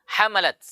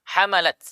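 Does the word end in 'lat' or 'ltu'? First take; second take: lat; lat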